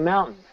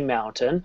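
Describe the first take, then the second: First: The middle t sound is almost dropped. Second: The middle t sound is clearly pronounced. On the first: This is how most speakers say it. "but most people don't. They say mountain" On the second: This is how a minority of speakers say it. "I do. I always say mountain"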